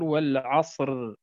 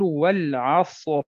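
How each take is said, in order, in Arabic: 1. الراء في آخر الكلمة مرقّقة وخفيفة. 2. الراء في آخر الكلمة مفخّمة وممتلئة. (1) "ولا نقول والعصر" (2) "فكأن الراء مفتوحة فتفخم، فنقول والعصر"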